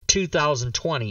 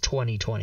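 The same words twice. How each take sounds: First: The year is read as two thousand twenty. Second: The year is read as twenty twenty. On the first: The speaker calls it wrong. "This year is not 2020" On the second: The speaker calls it right. "It's 2020. That's how you're supposed to say the year"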